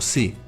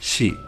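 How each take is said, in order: First: The syllable starts with a plain s sound. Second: The syllable starts with a sh sound. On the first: The speaker calls it wrong. "no se pronuncia como si" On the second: The speaker calls it right. "se pronuncia como shi"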